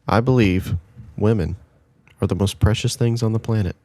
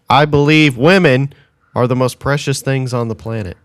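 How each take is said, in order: First: It is said quietly. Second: It is said loudly.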